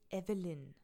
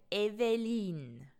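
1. Der Name wird standarddeutsch ausgesprochen. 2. Der Name wird schweizerisch ausgesprochen. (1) "Das ist Evelyn" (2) "Schweizer Menschen sagen Evelyn. Das ist doch Katastrophe"

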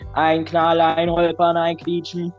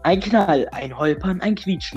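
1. Das wird flach und roboterhaft gelesen. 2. Das wird lebendig und menschlich gelesen. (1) "Nein, die sagt" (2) "die liest nicht so"

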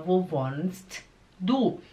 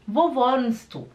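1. Falado devagar, com o t pronunciado. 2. Falado naturalmente, com o t omitido. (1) "Falado devagar" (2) "O T, ele desaparece"

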